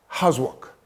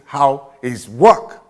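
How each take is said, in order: First: "How's" run together as one syllable; contracted form. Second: "How is work" slowly, every word separate; uncontracted form. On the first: Teacher showing an apostrophe, "How's" contracted. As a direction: say "How's work" short, joining how and is. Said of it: "when you put an apostrophe". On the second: Teacher contrasting with contraction, "How is" in full. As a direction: stretch "How is work" out, loud on work. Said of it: "as against". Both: Shown as a demonstration.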